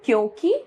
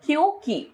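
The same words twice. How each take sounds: First: क्योंकि with a rising final 'kee'; wrong pronunciation. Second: Said in the usual way. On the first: Shown as a demonstration. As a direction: show the faulty क्योंकि, last vowel lifted. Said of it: "अशुद्ध रूप". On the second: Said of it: "इसका शुद्ध रूप".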